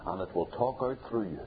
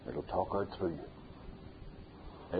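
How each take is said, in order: First: Said in the usual way. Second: Slow, much softer and lower; hushed echo. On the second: Acted. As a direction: let "It'll talk out through you" sink in quietly. Preacher repeats his point, softly.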